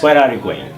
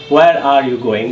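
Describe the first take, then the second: First: It is said at a quick, fluent speed. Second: It is said at a slow, careful speed. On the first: The speaker calls it right. "I need to make this speed" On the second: The speaker calls it wrong. "Not like this"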